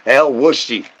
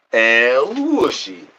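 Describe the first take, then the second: First: Said in the usual way. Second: Slow, high, stretched call of El Wushy; drawn-out call to a pet; cat-calling sing-song. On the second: Acted. Calling the cat in a long high sing-song.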